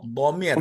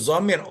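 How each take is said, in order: First: The word starts with a heavy d-like sound. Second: The word starts with a buzzing z sound. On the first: The speaker calls it right. "bo, bomir" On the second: The speaker calls it wrong. "itu bukan zomir"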